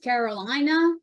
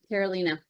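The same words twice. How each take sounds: First: The name is said with a Southern US accent. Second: The name is said in her own Colombian accent.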